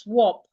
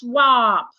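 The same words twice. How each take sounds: First: It is said with a British accent. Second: It is said with an American accent. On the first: "British articulate it as swap" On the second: "Americans articulate it as swap"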